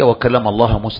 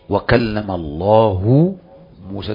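First: The word 'Allah' ends with an 'a' vowel. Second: The word 'Allah' ends with a 'u' vowel. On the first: Moses is the one who spoke. The speaker calls it wrong. "فقال اقرأ هكذا" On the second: God is the one who spoke. The speaker calls it right. "والقراءة المتواترة التي يقرأها المسلمون"

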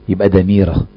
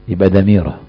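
Both takes have the same delivery.

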